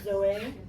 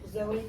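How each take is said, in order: First: The name is pronounced with French sounds. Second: The name is pronounced with English sounds. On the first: "first names in French" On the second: "Zoe becomes"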